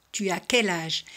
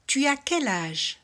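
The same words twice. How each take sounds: First: Said in the usual way. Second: "Tu as quel âge?" slow, high-set with pitch lifted; rising question model. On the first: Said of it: "repeated plainly". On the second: Shown as a demonstration. Teacher modelling French intonation question for learners. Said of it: "teacher models intonation question".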